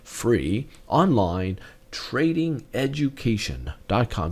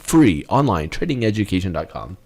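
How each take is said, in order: First: The address is said slowly and deliberately. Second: The address is said at normal speed.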